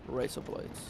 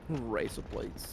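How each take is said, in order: First: It is said relaxed and low-key. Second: It is said with heavy, exaggerated emphasis. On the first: The speaker calls it right. "if you say it normal, like just like casually" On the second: The speaker calls it wrong. "putting a little bit extra on it, putting some Vegemite on it"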